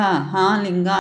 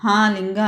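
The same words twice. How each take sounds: First: Cling and call again, fading; crying out. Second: Mild frightened cry, higher rise. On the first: ("హా లింగా" మళ్లీ భయంగా పిలుస్తూ) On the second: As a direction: call out to the idol in fear. (భయంతో "హా లింగా" అని కేక) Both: Acted. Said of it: "గట్టిగా ఏడుస్తూ".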